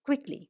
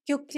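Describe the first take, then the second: First: The word begins with a 'kw' sound. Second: The word begins with a 'kyu' sound. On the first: The speaker calls it right. "K W വെച്ചിട്ട് ... pronunciation correct ആവും" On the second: The speaker calls it wrong. "ആ pronunciation ക്യു ക്യുക്ലി അല്ല"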